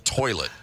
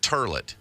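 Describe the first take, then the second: First: The first vowel sounds like 'oy'. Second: The first vowel sounds like 'er'.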